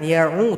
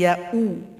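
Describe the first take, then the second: First: The glottal stop in the middle is weak. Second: The glottal stop in the middle is clear. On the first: The speaker calls it wrong. "bukan ya'u" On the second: The speaker calls it right. "Hamzah dibaca dengan jahar"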